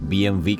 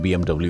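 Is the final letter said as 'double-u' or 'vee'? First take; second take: vee; double-u. First: The last letter is said as 'vee'. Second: The last letter is said as 'double-u'. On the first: This is how it is said in Germany. "डब्ल्यू को Germany में वी pronounce किया जाता है" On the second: This is how it is said in India and elsewhere. "India में और बाकी पूरी दुनिया में"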